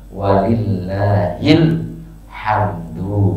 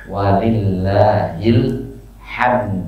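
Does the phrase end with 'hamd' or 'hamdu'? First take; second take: hamdu; hamd. First: The phrase ends with the full syllable 'hamdu'. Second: The phrase ends cut short on 'hamd'. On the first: The phrase runs on into the next words. "kalau diwasal" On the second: The phrase stops here. "Kalau waqaf"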